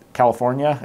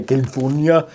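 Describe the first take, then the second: First: Said in the usual way. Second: Put-on CALIFORNIA mangled in the governor's accent, like "Kin-foon-ya"; governor's accented pronunciation. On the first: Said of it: "or as the governor would say". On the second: Mask reviewer quoting the governor on California, mock accented impression. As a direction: imitate the governor's accent on CALIFORNIA, first syllables squashed. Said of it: "as the governor would say".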